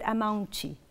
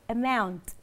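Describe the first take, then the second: First: An extra vowel sound follows the final T. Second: The word stops cleanly on the final T. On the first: The speaker calls it wrong. "Não podemos dizer amount" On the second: The speaker calls it right. "Temos que parar no T"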